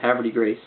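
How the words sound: The name is said with an American pronunciation. "since I'm American, I pronounce it"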